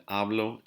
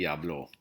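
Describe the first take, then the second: First: "hablo" stressed on HA; stress on first syllable. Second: "habló" stressed on the final O; stress on last syllable. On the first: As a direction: say "hablo" as HA-blo, weight up front. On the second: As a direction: say "habló" as ha-BLO. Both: Shown as a demonstration. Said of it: "I stress on the wrong places".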